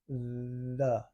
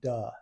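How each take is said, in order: First: The word begins with a soft th sound. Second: The word begins with a hard d sound. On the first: The speaker calls it right. "the correct way to do it is you stick your tongue between your teeth" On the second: The speaker calls it wrong. "I notice you're saying duh instead of the"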